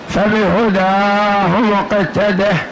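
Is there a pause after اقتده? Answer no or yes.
yes. There is a pause after iqtadih.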